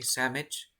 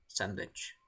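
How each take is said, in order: First: "sandwich" reduced to "sammich"; colloquial pronunciation. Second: Said in the usual way. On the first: Shown as a demonstration. Teacher showing the slang word, "sandwich" said as "sammich". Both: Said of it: "escriben sandwich".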